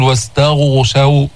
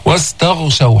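First: واستغشوا said with lips rounded on the غ; wrong rounded lips. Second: واستغشوا with a heavy but not maximal غ, lips unrounded; heavy ghain. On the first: Teacher shows students the wrong way, واستغشوا with rounded lips. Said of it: "وما تضم الشفتين هكذا". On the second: Teacher shows students the correct واستغشوا with a heavy غ. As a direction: give the غ in واستغشوا moderate emphasis. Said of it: "حصل التفخيم". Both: Shown as a demonstration.

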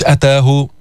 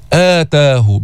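First: أتاه with a short first "a"; short hamza, mistaken. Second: آتاه with a long opening "aa"; madd badal. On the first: Teacher showing the wrong reading, short "a" opening أتاه. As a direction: clip the opening vowel of أتاه to "ataahu". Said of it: "مش أتاه". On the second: Teacher correcting the reading, long "aa" opening آتاه. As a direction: stretch the first vowel of آتاه to "aataahu". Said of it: "كمان في مد بدل". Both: Shown as a demonstration.

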